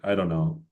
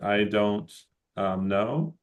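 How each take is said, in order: First: The words run together in a reduced form. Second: Each word is pronounced fully and separately. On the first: It suits a casual setting. "if we want to be more casual" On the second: It suits a more formal setting, like work. "there's two ways of saying"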